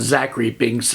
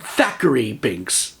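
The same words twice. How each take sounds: First: Name it Zachary Binks, beginning with a Z; misheard name. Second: Said in the usual way. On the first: Retold or imitated. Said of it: "I really thought his name was". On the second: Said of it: "Yes, I said Thackeray Binks".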